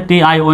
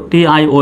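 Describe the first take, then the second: No difference in how they are said.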